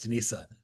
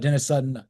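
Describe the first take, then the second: First: The first name has a French-style pronunciation. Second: The first name has a plain English pronunciation. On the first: "If it's French, it's, it's one N" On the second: "I think it's Dennis with two N's"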